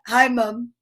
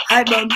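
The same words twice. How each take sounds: First: Lightly imitated child greeting mom; Ryan. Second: Said in the usual way. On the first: Host guessing how Ryan says it, light imitation. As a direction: give a slight put-on voice, as he'd say it. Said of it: "he's probably like this". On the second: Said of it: "Ryan says".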